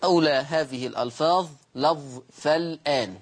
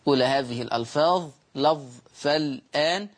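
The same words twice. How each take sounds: The two takes are said the same way.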